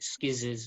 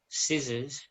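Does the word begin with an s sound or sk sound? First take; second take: sk sound; s sound. First: The word begins with an sk sound. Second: The word begins with a plain s sound.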